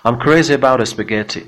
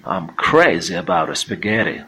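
First: Spaghetti with a crisp, fully released t, louder; clear t. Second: Slow American spaghetti with a tapped middle t; American flapped t. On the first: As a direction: hit the t in spaghetti cleanly. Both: Shown as a demonstration.

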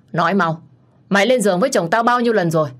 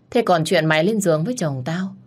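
First: Louder and fast, hammering the question; furious demand. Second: Restrained anger, accusing; bitter accusation. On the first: Wife interrogates the mistress. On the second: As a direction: press the charge, seething. Wife accusing the mistress. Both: Acted.

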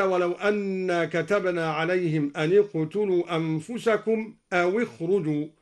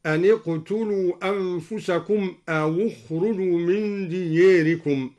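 First: Said in the usual way. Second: أو said as awu, a u vowel added to the waw before اخرجوا. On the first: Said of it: "قرأ الدوري بضم". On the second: Shown as a demonstration. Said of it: "بضم أولى الساكنين وهو الواو".

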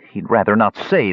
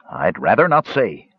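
First: Mild mocking echo; taunting. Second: Said in the usual way. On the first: A narrator's reading. Young elf mocks the dwarf's reply, taunting. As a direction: parrot the words back with a touch of taunt. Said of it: "the young elf taunted". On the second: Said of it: "said Mertwig".

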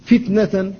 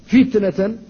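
First: فتنة with the first ta held tight; firm ta. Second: فتنة with the ta kept tense between fa and nun; firm ta. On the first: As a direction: say فتنة, ta tense between fa and nun. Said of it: "لا بد أيضًا من الحفاظ على شدة التاء". (فتنة بتاء مشددة محافظ عليها) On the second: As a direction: say فتنة, hold the sukun ta tight. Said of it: "لا بد من الحفاظ على شدتها". (فتنة مع الحفاظ على شدة التاء الساكنة) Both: Shown as a demonstration.

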